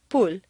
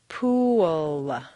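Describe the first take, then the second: First: It is said as a single short syllable. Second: It is stretched with an inserted w-glide. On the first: The speaker calls it wrong. "at best it will sound like pool" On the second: The speaker calls it right. "you need to say three syllables. Where did that W come from?"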